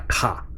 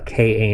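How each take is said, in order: First: It is said as a single syllable. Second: Each letter is said separately. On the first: The speaker calls it wrong. "not a Ka" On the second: The speaker calls it right. "this is a K A"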